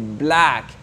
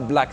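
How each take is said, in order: First: The vowel in the word is long. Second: The vowel in the word is short. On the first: The speaker calls it right. "une voyelle qui est un peu longue" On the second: The speaker calls it wrong.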